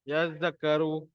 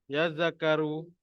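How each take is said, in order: The two takes are said the same way.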